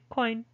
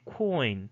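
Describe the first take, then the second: First: The vowel is said short. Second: The vowel is said long. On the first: The speaker calls it wrong. "you don't say coin" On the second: The speaker calls it right. "It's longer compared to, ... you would say coin"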